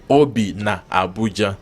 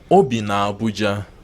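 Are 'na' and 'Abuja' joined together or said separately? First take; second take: separate; joined. First: Na and Abuja are said as separate words. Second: Na and Abuja run together smoothly. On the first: The speaker calls it wrong. "You don't say" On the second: The speaker calls it right. "you say Obi na Abuja, so that it flows"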